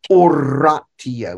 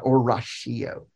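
First: The ti is said with a t sound. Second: The ti is said with a sh sound. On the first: The speaker calls it right. "it's always T-I-O" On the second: The speaker calls it wrong. "it's never sh"

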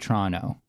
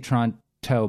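First: The t after the n is dropped. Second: The t after the n is pronounced. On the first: "So you'd say Toronto, like Tron-O kind of" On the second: "you might say Toronto, but it's kind of hard"

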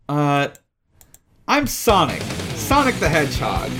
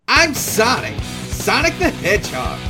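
First: It is said in an ordinary speaking voice. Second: It is said in a put-on character voice. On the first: The speaker calls it wrong. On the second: The speaker calls it right.

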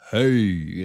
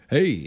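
First: It is said in a put-on deep voice. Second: It is said in Fonzie's normal voice.

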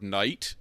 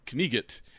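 First: The k and g sounds are silent. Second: The k and g sounds are pronounced. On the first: This is the modern pronunciation. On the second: This is the original older pronunciation.

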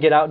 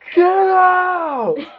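First: It is said firmly, not yelled. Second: It is screamed loudly.

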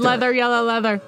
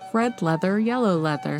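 First: It is said very fast. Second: It is said at a normal speed.

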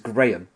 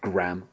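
First: The word is said with a non-American pronunciation. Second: The word is said with an American pronunciation. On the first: "that word is graham" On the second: "I don't pronounce that word graham. I don't know why Americans do that"

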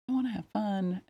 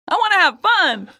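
First: It is said at a normal, quieter volume. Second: It is said louder, with more force.

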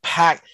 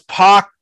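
First: The vowel is front, as in 'cat'. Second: The vowel is back, as in 'cot'. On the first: The speaker calls it wrong. "You don't pack" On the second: The speaker calls it right. "it's pock"

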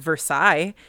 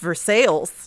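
First: The name is said with a French pronunciation. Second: The name is said with an English pronunciation. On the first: This is how the French place is said. The speaker calls it wrong. "spelled like Versailles, but that's not how you say it" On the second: This is how the local town is said. The speaker calls it right. "It's pronounced Versailles"

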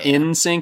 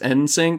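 First: The first part sounds like the word 'in'. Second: The first part sounds like the letter N. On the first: The speaker calls it wrong. "it's not NSYNC" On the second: The speaker calls it right. "like the letter N"

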